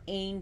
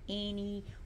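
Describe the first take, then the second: First: The name is said as Ain. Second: The name is said like Annie. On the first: "some people pronounce her Annie or Ain, but those are in totally one hundred percent incorrect" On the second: "some people pronounce her Annie or Ain, but those are in totally one hundred percent incorrect"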